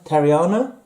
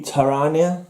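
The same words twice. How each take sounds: First: Tariana said as "terry-AH-na", rising; questioning pronunciation. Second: Tariana said as "ta-RAH-nee-a"; trying a pronunciation. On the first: Reader second-guessing a name, Tariana as a rising "terry-AH-na". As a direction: say Tariana with the ee before the AH. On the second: Reader sounding out an unfamiliar name, Tariana as "ta-RAH-nee-a". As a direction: say Tariana with the ee after the n. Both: Shown as a demonstration.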